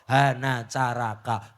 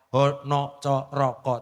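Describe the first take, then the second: First: The vowels are pronounced as a. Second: The vowels are pronounced as o.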